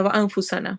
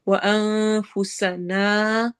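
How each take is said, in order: First: وَأَنفُسَنَا with the nasal cut short; wrong وَأَنفُسَنَا, nasal too short. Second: وَأَنفُسَنَا with the final alif stretched long; right way. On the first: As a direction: rush وَأَنفُسَنَا without the held ghunna. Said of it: "اس طرح نہیں پڑھنا ہوتا". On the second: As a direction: hold the last naa of وَأَنفُسَنَا. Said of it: "الف مدہ کے ساتھ". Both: Shown as a demonstration.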